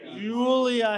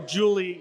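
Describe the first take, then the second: First: The name ends with an added 'uh' vowel. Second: The name ends without an added vowel. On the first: It follows the French pronunciation. "I added the uh because that's the French pronunciation" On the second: It is the plain everyday form. "you don't have to do that if you don't want to"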